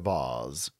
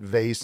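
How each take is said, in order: First: The word is said in a fancy, posh way. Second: The word is said in a plain, everyday way. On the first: The speaker would sound pretentious. The speaker calls it wrong. "instead of vase" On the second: The speaker avoids sounding pretentious. The speaker calls it right. "I didn't want to seem pretentious, so I went vase"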